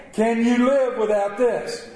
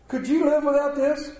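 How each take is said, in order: First: Slow, weighty "Can you live without this"; emphatic repeated question. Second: High-pitched rhetorical question; posed question. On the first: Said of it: "Let me ask you again". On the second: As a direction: put it to the congregation, pitched high. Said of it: "Let me ask you a question". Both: Real, not acted.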